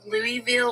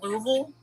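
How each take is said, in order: First: The name is said one way outsiders say it. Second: The name is said the way locals say it. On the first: The speaker is not from the area. "everyone else is like it's Louisville or Louisville" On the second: The speaker is from the area. "if you're from here, you call it Louisville"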